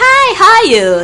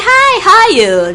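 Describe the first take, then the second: First: It is said in a put-on British accent. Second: It is said in a put-on British accent.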